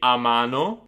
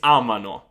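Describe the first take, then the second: First: The stress is on the second syllable. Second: The stress is on the first syllable. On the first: The speaker calls it wrong. "Usually students get the loro form wrong" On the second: The speaker calls it right. "you take back the stress at the beginning of the word"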